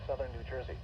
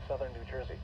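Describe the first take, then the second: No difference in how they are said.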